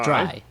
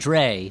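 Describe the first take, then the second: First: The vowel sounds like the one in 'dry'. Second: The vowel sounds like the one in 'day'. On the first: The speaker calls it right. "Dry. Rather" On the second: The speaker calls it wrong. "than Dre, as Dan said"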